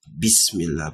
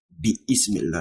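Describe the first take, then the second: First: The i of ismi is dropped and linked. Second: The i of ismi is pronounced separately. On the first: The speaker calls it right. "You say what? Bismillah" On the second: The speaker calls it wrong. "You don't say bi ismillah"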